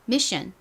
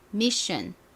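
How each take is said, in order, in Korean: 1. 보통 속도로 말해요. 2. 더 천천히 말해요.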